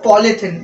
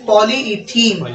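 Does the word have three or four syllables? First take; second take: three; four. First: The word is said as poly-thene, three syllables. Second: The word is said as poly-e-thene, four syllables. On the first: The speaker calls it wrong. "This is not पॉलीथीन" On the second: The speaker calls it right. "This is पॉलीइथीन"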